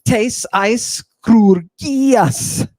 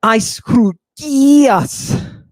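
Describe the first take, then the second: First: Tes eis crugias drawn out slowly, each syllable weighted; slow Greek phrase. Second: Eis crugias said very slowly and higher; slow Greek phrase again. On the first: Introducing an ancient concept, spelling out Tes eis crugias. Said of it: "Are you ready?". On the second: Repeating Eis crugias on request, slow and solemn. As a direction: stretch out Eis crugias like an incantation. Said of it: "Say that one more time". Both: Shown as a demonstration.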